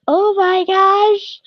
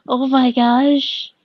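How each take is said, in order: First: High-pitched, drawn-out delighted squeal; slow high squeal of delight at the art; excited squeal. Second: Said in the usual way. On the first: Real, not acted. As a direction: squeal it slowly with overwhelming joy. Overjoyed at fan art gift.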